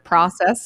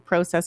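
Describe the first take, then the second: First: It is said with an American pronunciation. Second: It is said with a non-American pronunciation.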